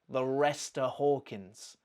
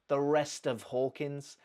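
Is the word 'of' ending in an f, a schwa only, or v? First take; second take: schwa; f. First: The word 'of' is reduced to a weak vowel. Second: The word 'of' ends with an f sound. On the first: "Nothing. It's just a" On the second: "She hasn't put a f"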